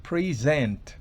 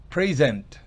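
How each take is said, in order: Both takes have the same delivery.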